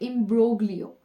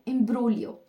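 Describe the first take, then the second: First: The g in the middle is pronounced. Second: The g in the middle is silent. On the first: The speaker calls it wrong. "Not" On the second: The speaker calls it right. "जी है that is what? The silent"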